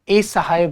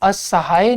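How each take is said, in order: First: The word starts with an 'e' vowel. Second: The word starts with a short 'a' vowel. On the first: "वो अ को ए कहते हैं ... जो कि गलत हो गया" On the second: "वो असहाय नहीं बोलेंगे"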